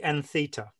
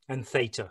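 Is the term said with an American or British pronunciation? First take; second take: British; American. First: The term is said with a British pronunciation. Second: The term is said with an American pronunciation.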